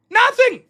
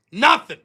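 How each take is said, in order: First: High, loud, scornful cry; taunting shout. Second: Short, firm dismissive answer; dismissive taunt. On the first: Acted. Second answer, shouted high. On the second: Retold or imitated. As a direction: answer your own taunt curtly. First taunting answer to own question.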